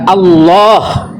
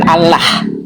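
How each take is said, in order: First: The l sound is thick and heavy. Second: The l sound is thin and light. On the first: The speaker calls it right. "dibaca tafkhim tebal idgham, yaitu dibaca Allah" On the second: The speaker calls it wrong. "bukan Allah"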